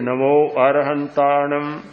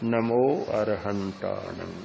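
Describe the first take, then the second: First: It is said at a normal, full voice. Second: It is said softly and slowly, on a long breath. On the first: This is how the practice begins. "प्रारंभ में तो बोलेंगे" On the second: The practice has deepened after some minutes. "श्वास बिल्कुल उच्चारण मंद हो जाएगा"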